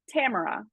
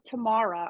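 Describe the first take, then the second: First: The name does not sound like 'tomorrow'. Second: The name sounds like 'tomorrow' ending in A. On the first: The speaker calls it right. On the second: The speaker calls it wrong.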